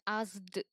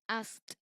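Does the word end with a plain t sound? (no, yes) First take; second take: no; yes. First: The ending is not a plain t sound. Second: The ending is a plain voiceless t sound. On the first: The speaker calls it wrong. "we don't pronounce the word as asked" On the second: The speaker calls it right. "We pronounce as asked sound"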